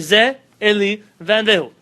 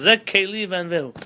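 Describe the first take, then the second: First: The word for God begins with a vowel. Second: The word for God begins with a K sound. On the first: The word plainly names God. The speaker calls it right. "You want to say HaKadosh Baruch Hu? Say" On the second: The word can suggest a vessel or destruction. The speaker calls it wrong. "you can't call Him Keli"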